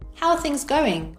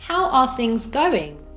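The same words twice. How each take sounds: First: The words are linked and reduced together. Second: Each word is said separately and fully. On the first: "with connected speech" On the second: "without connected speech"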